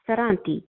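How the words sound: The R is rolled, Italian style. "with an Italian accent"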